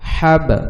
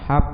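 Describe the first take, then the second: First: The final b is released with a bounce. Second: The final b ends flat without a bounce. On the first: The speaker calls it right. "Just এরকম বাতে ধাক্কা হবে" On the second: The speaker calls it wrong. "তাইলে এইটা প্রপার উচ্চারণ হবে না"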